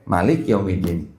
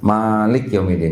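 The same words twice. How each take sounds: First: The first vowel of Malik is short. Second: The first vowel of Malik is held long. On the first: This is the reading used in Morocco. "Di Maroko pendek" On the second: This is the reading used locally.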